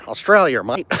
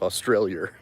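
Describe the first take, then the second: First: Aussie "Australia, mate" with a falling Australia; mock Australian. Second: "Australia" said the flat American way, lower; plain American "Australia" for contrast. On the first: Vlogger mimics Australians saying their country, mock accent. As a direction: imitate how Aussies say it. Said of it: "funny you guys say Australia". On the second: Shown as a demonstration. Vlogger shows how Americans say it, plain. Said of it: "that's the way it sounds to us".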